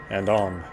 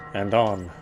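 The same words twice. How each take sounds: The two takes are said the same way.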